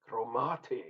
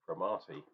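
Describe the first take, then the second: First: "Cromarty" in a rough try at a local accent, fuller first vowel; attempted local accent. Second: Said in the usual way. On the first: Shown as a demonstration. Beer reviewer guessing at the brewery's name, attempted local accent. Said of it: "it's not that accent". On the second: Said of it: "However you say it".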